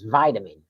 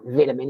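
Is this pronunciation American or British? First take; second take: American; British. First: It is said with an American pronunciation. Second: It is said with a British pronunciation. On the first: This is how Americans insist the word is said. "No, that's the way you pronounce it" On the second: This is how the speaker says the word. "It's not vitamin"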